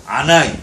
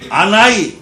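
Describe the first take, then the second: First: 아나이 said firmly; Hebrew anani. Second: 아나이 said loud and drawn out; Hebrew anani. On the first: Preacher repeating the Hebrew 아나이 firmly. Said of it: "이게 내가 이런 뜻이야". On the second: Preacher proclaiming God's word 아나이 loudly. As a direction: call out 아나이 with force. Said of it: "이랬어". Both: Shown as a demonstration.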